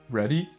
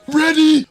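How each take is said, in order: First: It is said at a normal, quiet volume. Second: It is said loudly, as if shouting.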